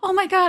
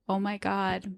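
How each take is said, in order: First: It sounds warm and sincere. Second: It sounds flat and sarcastic. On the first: The compliment is meant genuinely. "I think I'm being like" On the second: The compliment seems insincere. "resting sarcasm voice ... that's how it comes out"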